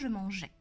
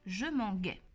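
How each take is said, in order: First: The consonant is a soft zh sound. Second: The consonant is a hard g sound. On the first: The speaker calls it right. "pour obtenir le son je" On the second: The speaker calls it wrong. "ça se prononce ga"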